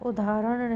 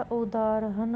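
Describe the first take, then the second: First: उदाहरण squeezed to u-daa-ran; wrong pronunciation. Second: उदाहरण said as u-daa-ha-ran; correct pronunciation. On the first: Teacher showing a spelling error, उदाहरण as u-daa-ran. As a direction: drop the h from उदाहरण. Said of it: "नहीं होगा". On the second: Teacher giving the correction, उदाहरण with its h. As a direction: sound the h in उदाहरण. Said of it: "होगा". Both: Shown as a demonstration.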